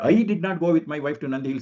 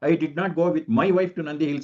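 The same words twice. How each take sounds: First: The stress falls on "I". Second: The stress falls on "my wife". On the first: "ಐ ನ ಒತ್ತು ಕೊಟ್ಬಿಟ್ರೆ" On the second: "ಮೈ wife ಅನ್ನೋದು ನಾನು ಒತ್ತು ಕೊಟ್ಬಿಟ್ರೆ ಹೇಳಿದಾಗ"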